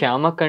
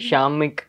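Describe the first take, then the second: First: The second syllable has an 'a' vowel. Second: The second syllable has an 'i' vowel. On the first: The speaker calls it right. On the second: The speaker calls it wrong.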